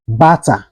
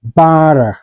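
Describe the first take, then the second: First: BUTTER with a clear hard T in the middle; T fully pronounced. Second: BUTTER with the T softened to a quick D-like tap; flapped T. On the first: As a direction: say "butter" with a crisp T, no flap. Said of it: "the T sounds like D". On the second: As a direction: say "butter" American style, like "budder". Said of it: "it's pronounced like". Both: Shown as a demonstration.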